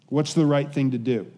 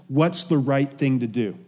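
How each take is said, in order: No difference in how they are said.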